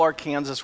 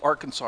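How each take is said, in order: First: Arkansas is said the local Kansas way. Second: Arkansas is said the way most states say it. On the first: "but not in Kansas. There we called it the Little Arkansas River" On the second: "in every other state, it's pronounced the Little Arkansas River"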